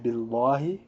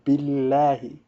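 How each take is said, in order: First: The L sound is heavy and dark. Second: The L sound is light and clear. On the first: The speaker calls it wrong. "Some people might mistakenly say billahi. This is incorrect" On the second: The speaker calls it right. "The lam has to be light"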